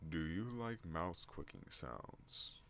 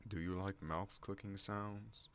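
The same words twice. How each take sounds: First: Very slow, drawn-out, swooping question; cast announcer voice. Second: Slow, slightly raised put-on voice. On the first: Pretend. Vlogger repeating the mouse question, very slow cast voice. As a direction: stretch every word like a mock announcer. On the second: Vlogger asking about mouse clicks, slow raised voice. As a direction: ask it slowly and a little high. Repeats question in contrasting voices.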